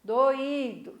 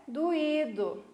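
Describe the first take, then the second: First: "Doído" with a full o before the stressed í; as spelled. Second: "doído" with the o said as u, du-Í-do; everyday pronunciation. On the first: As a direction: say "Doído" as written, do-Í-do. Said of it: "Mas escrevemos com o". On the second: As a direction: say "doído" casually as du-Í-do. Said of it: "A gente fala doído no dia a dia normal". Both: Shown as a demonstration.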